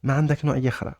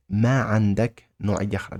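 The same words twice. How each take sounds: First: ما عندك نوعية أخرى as a question, pitched high on عندك then falling; question intonation. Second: ما عندك نوعية أخرى broken into parts, pitch near usual; word-by-word demonstration. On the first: Teacher showing a learner how to ask for another kind, question intonation. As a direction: lift عندك high, run quickly on through نوعية أخرى. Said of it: "with the intonation, it's a question". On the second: Teacher breaking down the question for a learner, word by word. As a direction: separate ما and عندك, then finish the phrase. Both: Shown as a demonstration.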